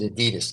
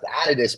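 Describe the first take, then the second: First: It is said with the American pronunciation. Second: It is said with the European pronunciation. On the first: "but in America you pronounce it Adidas" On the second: "it's properly pronounced Adidas"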